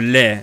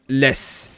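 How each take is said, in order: First: The final S is silent. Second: The final S is pronounced. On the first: The speaker calls it right. "in French you say le or les" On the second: The speaker calls it wrong. "not les. ... They pronounce the S"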